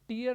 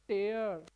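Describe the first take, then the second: First: The vowel sounds like the one in 'ear'. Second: The vowel sounds like the one in 'air'. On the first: The speaker calls it wrong. "टीयर नहीं" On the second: The speaker calls it right. "ये टेयर है"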